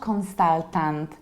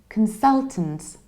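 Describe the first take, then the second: First: The first syllable has a full vowel. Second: The first syllable is reduced to kun. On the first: The speaker calls it wrong. "It's not consultant" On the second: The speaker calls it right. "I reduce the beginning"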